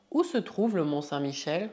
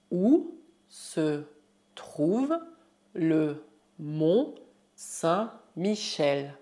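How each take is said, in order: First: Said in the usual way. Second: Very slow, drawn-out syllables; word by word. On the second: Shown as a demonstration. Teacher asks about Saint-Michel, slow word by word. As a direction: pause after every word for learners.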